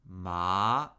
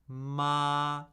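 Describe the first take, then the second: First: The pitch dips down, then rises higher. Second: The pitch stays high and level throughout. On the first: "Third tone, falling and rising" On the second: "First tone, high, flat, and unchanging"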